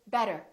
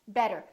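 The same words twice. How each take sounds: First: The middle consonant sounds like a quick D. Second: The same.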